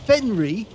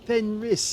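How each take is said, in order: First: The name ends in a vowel, no final s. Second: The name ends with a clear s sound. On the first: The speaker calls it wrong. "I'd actually mispronounced his name because I thought it was Fenry" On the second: The speaker calls it right. "but it's actually Fenris"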